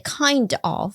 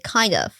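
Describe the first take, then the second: First: The two words are said fully and separately. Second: The two words are run together into one. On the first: The speaker calls it wrong. "you don't say kind of" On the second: The speaker calls it right. "you say kind of"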